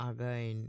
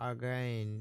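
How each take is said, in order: The two takes are said the same way.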